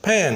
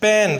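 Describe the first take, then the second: First: The p is said with a puff of air. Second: The p is said without a puff of air. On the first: This is how native speakers say it. The speaker calls it right. "मुंह में हवा भर के ये लफ्ज़ निकालते हैं" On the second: This is how second-language speakers usually say it. The speaker calls it wrong. "अगर मैं इसको गलत पढ़ूँ या सेकंड लैंग्वेज यूज़र के तौर पे"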